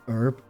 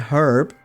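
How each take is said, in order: First: The word starts with a vowel sound, no h. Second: The word starts with a clear h sound. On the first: "I'm just so used to saying herb" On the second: "that's more like the short form of Herbert"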